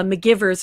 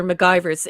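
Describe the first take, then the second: First: McGivers said muh-GIV-erz; short-i pronunciation. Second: McGivers said muh-GUY-verz; long-i pronunciation. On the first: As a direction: say McGivers to rhyme with "givers". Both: Shown as a demonstration. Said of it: "it's said both ways".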